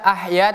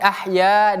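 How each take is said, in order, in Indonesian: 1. Vokal akhir ditahan pendek. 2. Vokal akhir ditahan selama dua harakat. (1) "kita tidak baca ah ya" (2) "tapi ah ya dua harokat"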